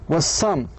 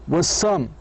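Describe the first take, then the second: No difference in how they are said.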